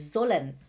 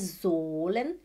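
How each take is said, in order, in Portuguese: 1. A primeira vogal é curta e rápida. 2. A primeira vogal é longa, alongada. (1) "é sollen. Quando você vê duas consoantes juntas, né? Você fala rápido" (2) "Não é sollen"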